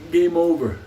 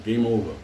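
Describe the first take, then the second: First: Louder, final declaration; loud closing call; emphatic. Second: Said in the usual way. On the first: Real, not acted. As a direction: slam it down like a verdict. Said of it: "So relax".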